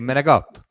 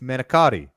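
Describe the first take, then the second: First: The word is said with its ending cut off. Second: The word is said with all its syllables. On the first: The speaker calls it wrong. "but they say Menegot" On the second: The speaker calls it right. "It's it's Menacati"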